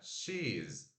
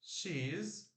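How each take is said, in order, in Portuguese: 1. As duas palavras são unidas em uma só sílaba. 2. As duas palavras são unidas em uma só sílaba.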